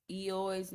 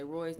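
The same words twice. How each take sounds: First: Eoy's read as "ee-oy", no R sound at the start; misread name. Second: Roy's said with a clear R at the start, as the name Roy; corrected name. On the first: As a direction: sound out Eoy's like "ee-oy", just as the typo is spelt. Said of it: "I think it's supposed to say Roy's". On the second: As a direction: correct it to Roy's, R sound at the front. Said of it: "supposed to say Roy's". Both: Shown as a demonstration.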